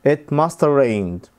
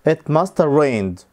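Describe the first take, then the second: The two takes are said the same way.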